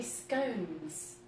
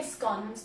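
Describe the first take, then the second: First: "scones" rhyming with cones; long-o pronunciation. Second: "scones" rhyming with dons; short-o pronunciation. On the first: Baker argues from spelling, "scones" said with long o. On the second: Baker admits a habit, "scones" said with short o. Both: Shown as a demonstration. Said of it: "because of the E".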